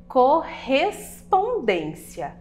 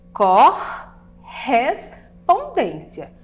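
First: "correspondência" said slowly, syllable by syllable; syllables split apart. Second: "Correspondência" very slow and louder, each syllable stretched apart, strong rolled RR. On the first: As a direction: spell out "correspondência" in slow syllables. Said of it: "Percebam que o R R estão em sílabas separadas". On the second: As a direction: drag "Correspondência" out syllable by syllable for the class. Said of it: "isso é uma regra muito importante". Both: Shown as a demonstration.

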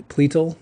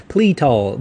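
First: Said in the usual way. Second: Pletal said louder, with an Okie twang; Okie accent. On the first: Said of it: "say it properly". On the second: Shown as a demonstration. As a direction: punch out Pletal like an Oklahoma Southerner. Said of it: "I say it kinda like an Okie".

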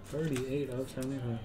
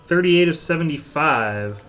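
First: Much softer, to himself; quiet repeat. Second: Loud number callout; announcer callout. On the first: Card breaker repeating the serial number, quiet aside. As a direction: drop right down to an aside. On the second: Card breaker announcing a card's serial number, loud callout. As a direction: call the numbering out big to the room. Calls out number, then repeats quietly. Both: Real, not acted.

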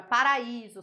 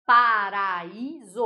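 First: Said in the usual way. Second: "paraíso" drawn out very slowly, syllable by syllable; louder, slow demonstration of "paraíso" in separate syllables; sounded-out syllables. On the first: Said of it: "sonoramente a gente divide". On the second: Shown as a demonstration. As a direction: stretch "paraíso" so the split between a and i is heard. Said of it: "é sonoramente a gente divide".

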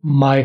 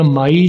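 First: माय said with a short 'ae' ending; teacher models the native माय; my as 'mae'. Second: माई with the long 'aa-ee' glide; teacher shows the Pakistani माई; wrong 'my' vowel. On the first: Teacher gives the right 'my', माय. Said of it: "माय होता है". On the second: Teacher models the wrong 'my', माई. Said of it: "वो माई नहीं होता". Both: Shown as a demonstration.

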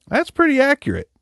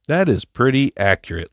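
First: Squeaky high agreeing voice; high falsetto. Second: Said in the usual way. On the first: Pretend. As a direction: flip way up into falsetto. Repeats phrase high then plain.

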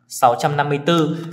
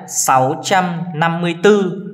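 First: Said in the usual way. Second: Reads the number slowly, a bit higher. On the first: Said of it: "Thì cẩn thận em có thể tách ra". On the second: Shown as a demonstration. Teacher reading the number slowly to pupils. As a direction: spell out sáu trăm năm mươi tư slowly for the class. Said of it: "Tiếp đến nào".

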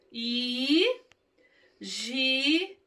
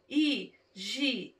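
First: "Higiene" as long hi, gi, e, ne; sílaba por sílaba. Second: "Higiene" split with shorter pauses; softer, separate syllables on "Higiene"; sílaba por sílaba. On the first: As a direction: stretch each syllable of "Higiene", pausing between. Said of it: "Vamos ler". ("Higiene" silabado, bem esticado) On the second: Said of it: "Estão vendo as sílabas?". ("Higiene" silabado, mais curto e suave) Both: Shown as a demonstration.

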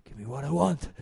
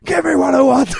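First: Lower, softer, calmed-down demand; calmer. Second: Much higher, much louder shout; shouting again. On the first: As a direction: suddenly bring it down, composed. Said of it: "kinda calms himself and he's like". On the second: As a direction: burst back into the yell. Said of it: "he's like". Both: Retold or imitated.

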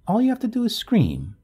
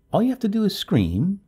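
First: High-pitched call up the stairs; calling from downstairs. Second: Urgent plea, pitched high. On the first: Neighbor on the stairs reminds the wife, calling back. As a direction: sing out the reminder from below. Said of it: "Her voice trailed up from the stairs". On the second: Neighbor turns at the door to offer help, urgently. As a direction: press the advice on her urgently. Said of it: "turning and saying urgently". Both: A narrator's reading.

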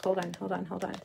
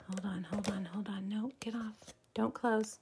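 First: Said in the usual way. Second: Hushed panicked whisper; flustered whisper at the glitch; urgent whisper. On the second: Real, not acted. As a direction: whisper it fast under your breath.

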